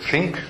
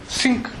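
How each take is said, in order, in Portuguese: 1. A palavra começa com um som de th suave. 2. A palavra começa com um som diferente, que não é th. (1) "tem muita dificuldade em dizer think" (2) "tende a dizer think"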